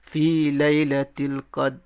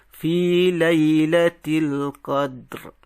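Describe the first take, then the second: First: The last word ends without an r sound. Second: The last word ends with an audible r sound. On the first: The speaker calls it wrong. "tak boleh kita berhenti fi lailatul qad, tak boleh" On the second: The speaker calls it right. "kena ada bunyi ra"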